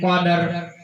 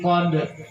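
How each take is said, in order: First: An extra vowel is sounded before the final r. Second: The word ends in a plain consonant cluster. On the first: The speaker calls it wrong. "Lima ayat tidak ada yang sempurna caranya membaca" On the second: The speaker calls it right. "Bagaimana caranya membaca yang benar?"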